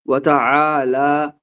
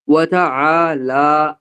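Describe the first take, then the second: No difference in how they are said.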